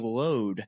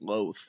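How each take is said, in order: First: The name is said the Irish way. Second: The name is said the American way. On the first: This is how the locals say it. "is how they the caddies okay. pronounce it to me" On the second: This is how a visitor said it. "but I was count, pronouncing it Loath"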